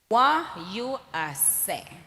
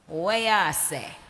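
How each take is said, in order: First: The phrase is said slowly and carefully. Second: The phrase is said fast and run together. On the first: "I said it slowly" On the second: "in reality it goes"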